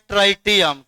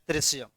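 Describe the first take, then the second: First: The word is said with a 't' sound. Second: The word is said with a 'sh' sound. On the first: The speaker calls it wrong. "ऐसे कितना आदमी पढ़ता है ट्राइटियम?" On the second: The speaker calls it right. "लेकिन इसका सही उच्चारण क्या होता है?"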